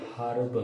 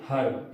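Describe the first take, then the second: First: हर्ब said the British way, h sounded; हर्ब opening on a breathed h. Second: हर्ब said the American way, h dropped; हर्ब with no h sound at the start; American silent h. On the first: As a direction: begin हर्ब with an audible h. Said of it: "British English पढ़ते". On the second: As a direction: start हर्ब on the vowel, like "erb". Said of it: "इसमें एच silent करते हैं". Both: Shown as a demonstration.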